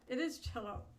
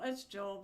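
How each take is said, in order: First: The name is said like Jello. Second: The name is said like Joel. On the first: The speaker calls it right. "I feel stupid now. It's Jello" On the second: The speaker calls it wrong. "It's Joel, but J three"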